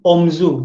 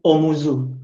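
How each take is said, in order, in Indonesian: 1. Vokal tengah u dihilangkan, jadi dua suku kata. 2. Vokal tengah u tetap ada, jadi tiga suku kata. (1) "Nah itu menjadi omzu" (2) "Bukan omuzu"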